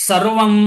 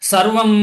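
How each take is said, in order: The two takes are said the same way.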